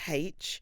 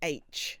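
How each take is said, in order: First: The letter name is said the South London way. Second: The letter name is said the standard way. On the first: This is how she used to say it. The speaker calls it wrong. "instead of H" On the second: This is the way she trained herself to say it. The speaker calls it right. "I did train myself to say H"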